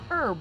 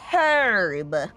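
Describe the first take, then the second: First: The word starts with a vowel, no h sound. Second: The word starts with an audible h sound. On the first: This is the older form. "But it used to just be herb, no H" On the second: The speaker sounds upper class. "If you're a high class, sophisticated citizen, then you say herb"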